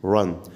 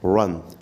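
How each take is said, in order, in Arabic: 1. الراء تُقال مع تدوير خفيف للشفتين. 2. الراء تُقال مع تدوير خفيف للشفتين.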